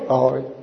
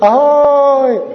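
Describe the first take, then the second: First: The greeting sounds cold and without emotion. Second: The greeting sounds warm and eager. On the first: The greeter holds a dismissive, stronger position. "odmítavý, chladný, bez emocí" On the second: The greeter wants the friendship. "slyšíš ten rozdíl?"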